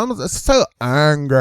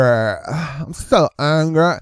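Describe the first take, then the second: First: Said in the usual way. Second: Slow, drawn-out mock whine; mock angry activist. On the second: Commentator mocks an activist, slow drawn-out whine. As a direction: stretch it like a sulky protester.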